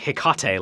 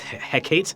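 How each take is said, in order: First: The name is said to rhyme with Tecate. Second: The name is said not rhyming with Tecate. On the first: The speaker calls it wrong. "before I was saying Hecate, like Tecate" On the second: The speaker calls it right. "but it's Hecate"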